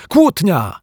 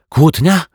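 First: High, falling exclamation of KŁÓTNIA; jubilant, high-pitched announcement; overjoyed cry. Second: KŁÓTNIA high and rising, as a question; loud, high, rising query; puzzled echo question. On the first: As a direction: cry "Kłótnia!" as glorious news. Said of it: "wrzasnął uszczęśliwiony detektyw Pozytywka". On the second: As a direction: repeat "Kłótnia?" with a questioning lift. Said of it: "powtórzyła Asia". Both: A narrator's reading.

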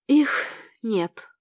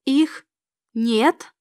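First: Subdued, sorrowful statement; gently mournful, falling away; sad. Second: Halting, stunned question; understated horror, broken by a pause; horrified echo. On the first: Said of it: "печально сказала она". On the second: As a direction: repeat it in disbelief, word by word. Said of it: "Я в ужасе уставилась". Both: A narrator's reading.

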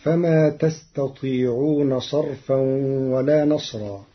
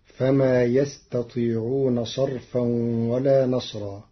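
First: تستطيعون with a clear ta at the start; Hafs reading. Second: يستطيعون with ya in place of ta; third-person reading of يستطيعون; Warsh reading. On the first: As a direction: recite تستطيعون as second person. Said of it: "قرأ ورش كلمة تستطيعون". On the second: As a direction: start يستطيعون on a clear ya. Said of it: "بياء الغيب". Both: Shown as a demonstration.

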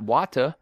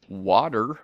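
First: "water" with the final r dropped; British-style water. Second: "water" with its final r sounded; American-style water. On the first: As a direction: say "water" as "wah-tuh". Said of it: "you have a British accent". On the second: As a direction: say "water" ending in a clear r. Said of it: "I do still say water and not water". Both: Retold or imitated.

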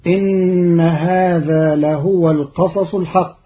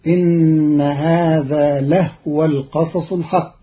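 First: لهو chanted with a damma, lahuwa; Quran recitation. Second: لهو with a silent ha, lahwa; لهو with a sukun on the ha; Qalun reading. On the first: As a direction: melodic tajweed chant. Verse recited before the rule. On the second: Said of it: "فتصير". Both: Shown as a demonstration.

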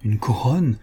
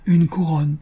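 First: Said in the usual way. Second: Une couronne pressed, higher; insisting. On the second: A narrator's reading. (une couronne, en insistant, plus aigu) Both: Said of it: "insista la mourante".

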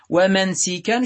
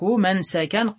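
First: ومنسكا as wa-mansikan, i on the sin; irregular kasra form. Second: منسكا as mansakan, a on the sin; regular fatha form. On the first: Teacher giving the irregular noun, ومنسكا said wa-mansikan. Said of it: "شذوذا". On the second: Teacher giving the regular noun, منسكا said mansakan. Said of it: "قياسا". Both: Shown as a demonstration.

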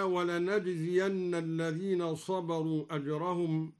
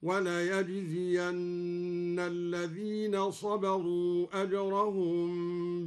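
First: Said in the usual way. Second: "وليجزين" recited walayajziyanna, with y; slow chant, y sound in "وليجزين"; ya instead of nun. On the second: Shown as a demonstration. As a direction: start the verb in "وليجزين" with ya, not na. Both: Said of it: "قرأها الدوري بالياء".

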